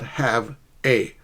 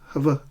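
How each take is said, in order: First: The two words are said apart, separately. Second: The two words run together as one. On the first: The speaker calls it wrong. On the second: The speaker calls it right. "native speakers often connect words"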